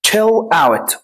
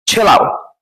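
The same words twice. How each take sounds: First: Said in the usual way. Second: "chill out" run together as one word, the t dropped; street pronunciation. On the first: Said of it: "طبعًا ما بيقولهاش كده". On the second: Shown as a demonstration. Teacher shows how the street says it, "chill out" blurred together. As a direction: glue "out" onto "chill" with no break. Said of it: "آه كده".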